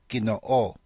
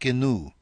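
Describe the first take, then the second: First: The double O is said as two vowels. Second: The double O merges into one long vowel. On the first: The speaker calls it right. "They're pronounced separately, O-O" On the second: The speaker calls it wrong. "Not gnu"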